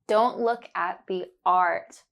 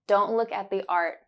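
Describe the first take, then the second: First: It is said slowly, stretching the vowel sounds. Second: It is said at a normal conversational speed. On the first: "First, I will say it slowly and focus on the sound" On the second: "Then you will hear it naturally"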